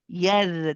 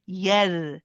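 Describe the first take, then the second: First: The r sound is light and thin. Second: The r sound is light and thin.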